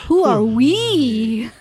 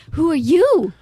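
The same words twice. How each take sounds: First: Loud, slow, with WE stretched out; big swooping emphasis on WE; stress on WE. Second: Loud, with YOU swooping up and down; stress on YOU. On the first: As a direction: draw WE out in mock drama. Turns question round theatrically. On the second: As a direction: throw a loud, emphatic YOU back. Mock amazement, contrasting with next line. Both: Acted.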